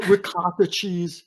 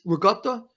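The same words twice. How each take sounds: First: "ricotta" with a clear t, drawn out; plain American pronunciation. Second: "Ricotta" as "rigutta", with a g sound; Italian-American pronunciation. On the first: Quoting a restaurant server, "ricotta" said slowly with a clear t. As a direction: say "ricotta" slowly as spelled, "ri-cot-ta". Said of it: "someone says mozzarella cheese". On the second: Correcting a restaurant server, "Ricotta" said Italian-American as "rigutta". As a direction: query "Ricotta" back as "ri-GUT-ta". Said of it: "I'm like". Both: Retold or imitated.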